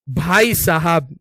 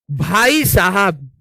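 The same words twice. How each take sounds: First: Slow, stretched भाई साहब; comic slow-motion exclamation; drawn-out exclamation. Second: Slow, stretched भाई साहब; slow exclamation; drawn-out exclamation. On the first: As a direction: drag out भाई साहब for effect. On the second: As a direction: drag out भाई साहब for comic weight. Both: Real, not acted. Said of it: "drawn-out exclamation".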